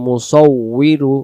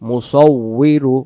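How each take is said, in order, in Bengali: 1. মাঝের ব্যঞ্জনটি দ্বিত্ব w ধ্বনি। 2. মাঝের ব্যঞ্জনটি দ্বিত্ব w ধ্বনি।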